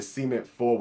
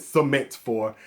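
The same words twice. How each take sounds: First: Southern pronunciation of "Cement Fold", stress up front; southern accent. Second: "Cement Four" enunciated, stress on the second syllable; careful standard pronunciation. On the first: Real, not acted. Atlanta vlogger naming a shoe, southern accent. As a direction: say "Cement Fold" with a southern first syllable, SEE-ment. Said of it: "don't like my southern accent". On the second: Shown as a demonstration. For viewers who dislike his southern accent, careful pronunciation. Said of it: "For all y'all who don't like my southern accent".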